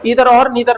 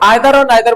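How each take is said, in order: First: It is said in a non-British way. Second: It is said in a British way. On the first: "मेरी भी आदत इधर की है" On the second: "British वाले आइदर और नाइदर बोलते हैं"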